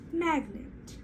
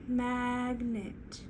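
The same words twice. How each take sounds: First: Said in the usual way. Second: "Magnet" pulled apart as MAG... NET; slow two-part "Magnet"; stretched into syllables. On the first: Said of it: "bring it back together". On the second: Shown as a demonstration. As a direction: draw out both halves of "Magnet". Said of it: "Let's try it again".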